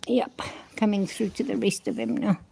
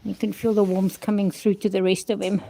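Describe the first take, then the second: First: Hushed aside to yourself; a quiet whispered repeat. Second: Said in the usual way. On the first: Real, not acted. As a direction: whisper it under your breath, no voice. Repeats the line to herself.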